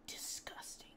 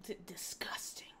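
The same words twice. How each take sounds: First: Breathy, soft disgusted whisper; mock whisper. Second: Soft disgusted whisper. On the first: Streamer reacting to clip with a whispered disgusted echo. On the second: Real, not acted. Streamer whispering disgust at a clip. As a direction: murmur it under your breath.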